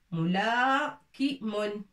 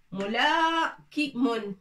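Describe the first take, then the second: First: "Moula ki mon" drawn out, the "mou" said as a short a sound; careful teacher's model of "Moula ki mon"; slow demo pronunciation. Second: "Moula ki mon" said slowly, syllable by syllable, the alif not pronounced; slow, careful "Moula ki mon"; slow demo pronunciation. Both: Shown as a demonstration. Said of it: "Ça se prononce que ftha, que a".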